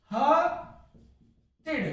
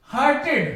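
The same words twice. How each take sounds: First: हर्टेड drawn out very slowly the wrong way; wrong pronunciation, slow. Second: हर्टेड ending in a short "id"; right pronunciation, ending "id". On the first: Teacher shows students the wrong form, very slowly. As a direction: stretch हर्टेड right out as the mistake. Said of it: "तो हर्टेड नहीं होगा". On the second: Teacher gives students the correct form, ending "id". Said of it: "हर्टेड उच्चारण होगा इसका". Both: Shown as a demonstration.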